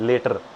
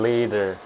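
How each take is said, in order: First: The middle consonant is a hard retroflex T. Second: The middle consonant is a soft D-like sound. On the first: The speaker calls it wrong. "ये जो ट्र की sound है ना, ये उस ट ठ ढ ढ ण हिंदी में तो है" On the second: The speaker calls it right. "ट की जगह वो ड बन गया"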